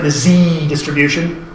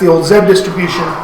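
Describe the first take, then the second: First: The letter Z is said as 'zee'. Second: The letter Z is said as 'zed'.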